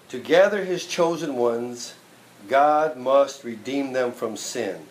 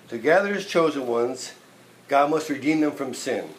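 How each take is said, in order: First: The sentence is spoken slowly and deliberately. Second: The sentence is spoken at a normal pace.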